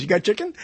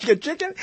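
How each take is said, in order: First: Said in the usual way. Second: Higher, rising "You got chicken?"; mock surprise at "You got chicken?"; mock incredulous. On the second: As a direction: repeat it in disbelief, lifting the pitch. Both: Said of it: "He goes".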